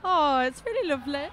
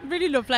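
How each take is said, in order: First: A passing hint of a Birmingham accent on "really lovely"; accidental touch of Birmingham accent; slipped into Birmingham. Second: Said in the usual way. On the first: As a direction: let "really lovely" slide briefly into a light Brummie accent. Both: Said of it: "I went really Birmingham for a second then".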